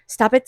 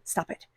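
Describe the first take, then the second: First: Louder sharp stop it; firm stop. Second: Hushed, soft firm stop it; soft warning from Spirit; quiet stop. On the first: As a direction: snap stop it out firmly. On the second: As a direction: say stop it under your breath. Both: Acted. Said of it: "Spirit is saying".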